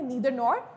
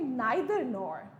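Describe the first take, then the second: First: Neither begins with an 'ee' sound. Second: Neither begins with an 'eye' sound. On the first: "बहुत से लोग pronounce करते हैं नीदर nor, which is fine" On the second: "जो कि है नाइदर nor"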